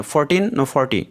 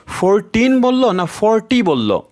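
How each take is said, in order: First: Said in the usual way. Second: ফোরটিন and ফর্টি set apart slowly, pitched higher; careful contrast demo. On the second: Shown as a demonstration. Teacher shows students the ফোরটিন and ফর্টি contrast, slow and careful. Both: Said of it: "দ্রুত বলার সময় এটা ধরা যায় না".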